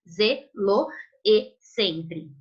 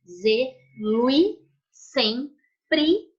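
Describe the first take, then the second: First: The final o and the e are two syllables. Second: The final o and the e merge into one syllable. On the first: The speaker calls it wrong. "Eu não falo antes e com tal zelo e sempre" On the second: The speaker calls it right. "Reparem que o loe eu falo junto também"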